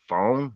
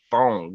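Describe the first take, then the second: First: The word ends with a plain n sound. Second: The word ends with an added g sound. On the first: "instead of saying phone" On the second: "Put a G at the end"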